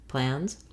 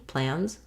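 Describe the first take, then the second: No difference in how they are said.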